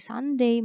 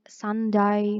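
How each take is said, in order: First: The ending sounds like 'day'. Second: The ending sounds like 'die'. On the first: The speaker calls it right. "diingat ya bacanya day" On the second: The speaker calls it wrong. "bukan die. So, stop saying"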